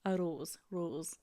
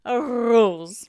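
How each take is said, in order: First: Tentative Scottish "rose", said softly; Scottish accent. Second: Loud Scottish "rose" with a heavily rolled R; exaggerated Scottish accent. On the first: Struggling with a hard word, tentative Scottish accent. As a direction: try "rose" quietly in Scottish. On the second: Having another go at the hard word, exaggerated Scottish accent. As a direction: belt out "rose" in broad Scottish. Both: Shown as a demonstration. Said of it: "That's quite a hard word to say in Scotland".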